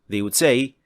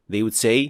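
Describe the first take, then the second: Both takes have the same delivery.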